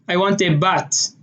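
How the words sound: The last word ends with a t sound.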